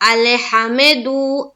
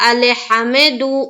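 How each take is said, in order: Both takes have the same delivery.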